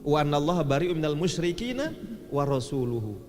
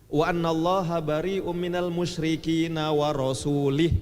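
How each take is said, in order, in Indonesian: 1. Kata terakhir berakhir dengan vokal 'u'. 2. Kata terakhir berakhir dengan vokal 'i'. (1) "mestinya wa rasuluhu" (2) "Padahal bacanya mestinya wa rasuluhu"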